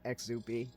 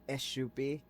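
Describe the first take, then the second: First: The middle consonant is a 'ks' sound. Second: The middle consonant is a 'sh' sound. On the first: The speaker calls it wrong. "not Exupi" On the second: The speaker calls it right. "the X would be pronounced as a sh"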